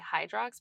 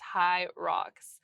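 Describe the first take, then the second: First: A d sound follows the first syllable. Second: No d sound follows the first syllable. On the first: The speaker calls it wrong. "I always want to say Hydrox" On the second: The speaker calls it right. "but it's high rocks"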